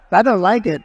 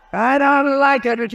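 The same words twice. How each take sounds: First: Blurted loud displeasure at his own hair on screen; complaining loudly, half joking, about his hair; loud complaint. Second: Higher, slow, drawn-out mock whine. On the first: Speaker sees his hair on the big screen, loud complaint. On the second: Speaker jokes to the crowd about his hair, high drawn-out whine. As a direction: stretch it out in a high playful whine. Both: Real, not acted. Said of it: "I'm looking at my hair up there".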